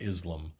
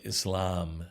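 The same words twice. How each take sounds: First: The stress is on the first syllable. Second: The stress is on the second syllable. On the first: The speaker calls it wrong. "not Islam" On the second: The speaker calls it right. "with a slightly uh, hissing S and emphasis on the second syllable"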